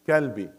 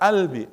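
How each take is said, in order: First: The word starts with a k sound. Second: The word starts with a glottal stop. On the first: "they will say kalbi" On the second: "others say"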